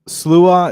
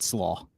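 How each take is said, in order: First: The name ends in an 'oo-uh' sound. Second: The name ends in an 'aw' sound. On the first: This is the original intended pronunciation. "Slua is how it's supposed to be pronounced" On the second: This is the simplified everyday pronunciation. "when we used it as a band name, we just said Slaw"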